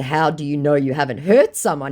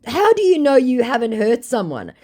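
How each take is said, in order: First: Said in the usual way. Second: High, loud re-enacted challenge; indignant challenge. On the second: Woman confronting a scammer over his victims, indignant. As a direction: fire the question at them, pitched up.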